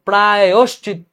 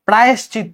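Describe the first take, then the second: First: An o vowel follows the y sound. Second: No o vowel follows the y sound. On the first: The speaker calls it right. "কিন্তু প্রায়শ্চিত্ত, অন্তস্থের সাথে ওকার হবে" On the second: The speaker calls it wrong. "প্রায়শ্চিত্ত না"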